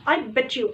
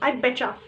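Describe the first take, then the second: First: Bet and you are said as separate words. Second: Bet and you blend into one sound, betcha. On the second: "informal वे में ... pronounce करने में ... आई बेचा"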